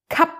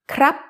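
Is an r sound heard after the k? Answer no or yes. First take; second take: no; yes. First: The word is said without an r after k. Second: The word is said with an r after k. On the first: This is the casual, everyday form. "colloquially, men like to say kap" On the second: This is the formal, written form. "that's how it's written"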